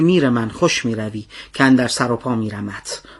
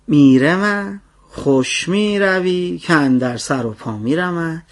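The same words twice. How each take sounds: First: The line is recited in a plain, straight manner. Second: The line is recited in a joking, playful manner.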